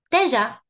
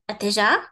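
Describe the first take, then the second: First: The first vowel is not said at all. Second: Every vowel is pronounced clearly. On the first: "I just don't pronounce it at all" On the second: "It's normal if I pronounce everything"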